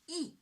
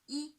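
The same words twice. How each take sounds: First: The pitch falls sharply from high to low. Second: The pitch stays high and level, held long. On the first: "the fourth tone, from five to one, ... short and strong" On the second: "First tone on the five. On the five, high pitch, naturally prolonged"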